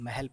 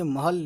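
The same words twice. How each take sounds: First: The first vowel is an 'e' sound. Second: The first vowel is a clear 'a' sound. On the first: This is how people actually say it. "लेकिन हम उसको महल पढ़ते हैं" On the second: This follows the written spelling. "महल लिखा है"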